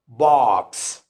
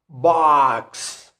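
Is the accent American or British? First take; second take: British; American. First: The vowel is said with rounded lips. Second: The vowel is said with unrounded lips. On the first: "in the British accent ... our lips are rounded" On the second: "we don't have rounded lips"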